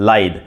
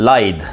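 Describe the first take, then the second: Both takes have the same delivery.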